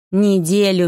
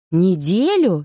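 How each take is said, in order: First: НЕДЕЛЮ stated firmly, no questioning swoop; combative declaration. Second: Startled question. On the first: Yaga confirms the absence to the heroine, combative. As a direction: assert НЕДЕЛЮ as an indisputable fact. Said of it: "заявила Анастасия Павловна, воинственно уперев руки". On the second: Heroine learns she was gone a week, startled. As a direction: pitch swooping up on НЕДЕЛЮ in disbelief. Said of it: "спохватилась я". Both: A narrator's reading.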